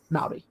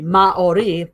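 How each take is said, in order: First: The word is said quickly, syllables run together. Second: The word is said slowly, vowels kept separate. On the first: "they say it quickly" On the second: "they don't really do diphthongs, so it'd be Maori"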